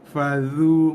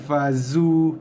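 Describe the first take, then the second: First: The middle consonant is a soft 'th' sound. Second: The middle consonant is a buzzing 'z' sound. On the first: The speaker calls it right. "Ni huruf zal" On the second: The speaker calls it wrong. "Itu huruf zai"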